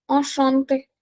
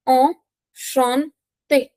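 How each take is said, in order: First: Said in the usual way. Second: Very slow ENCHANTÉ, broken into syllables. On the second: Shown as a demonstration. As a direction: stretch out "Enchanté" with gaps for learners. Teacher models word syllable by syllable.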